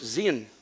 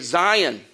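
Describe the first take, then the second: First: The word is said the Hebrew way. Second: The word is said the usual English way. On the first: The speaker calls it right. "The correct word is Zion" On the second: The speaker calls it wrong. "We say Zion"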